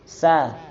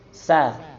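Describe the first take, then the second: No difference in how they are said.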